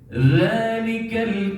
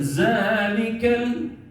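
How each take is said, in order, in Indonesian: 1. Konsonan pertama adalah bunyi th yang lembut. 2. Konsonan pertama adalah bunyi z biasa. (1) "Huruf zal, zali zubal, bukan za" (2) "bukan zalikal"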